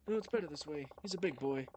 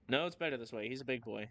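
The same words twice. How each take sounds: First: It is said in a put-on character voice. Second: It is said in the speaker's natural voice.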